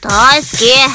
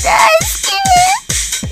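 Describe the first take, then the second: First: It is said in an angry tone. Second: It is said as if crying.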